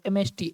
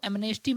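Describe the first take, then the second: First: No n sound is heard after the m. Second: An n sound is heard after the m. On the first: The speaker calls it right. "एम के बाद एन silent होता है" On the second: The speaker calls it wrong. "इसको एमनेस्टी मत पढ़िएगा"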